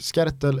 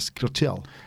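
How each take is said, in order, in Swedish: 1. Namnet uttalas på ett förenklat svenskt sätt. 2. Namnet uttalas närmare sitt ursprungliga uttal. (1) "Skertel vedertaget" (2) "det sistnämnda har jag väldigt svårt att få till"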